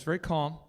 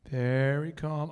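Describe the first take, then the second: First: Said in the usual way. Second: Slow, lower, deliberately calm imitation of a wife. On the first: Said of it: "communicates is like this, very calm". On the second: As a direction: stretch it out with exaggerated calm. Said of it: "how my wife communicates is like this, very calm".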